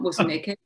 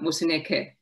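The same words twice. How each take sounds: First: The pitch rises through the name. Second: The pitch falls through the name. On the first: The speaker calls it wrong. "As English speakers, we always rise upwards" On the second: The speaker calls it right. "for African languages, you need to go down"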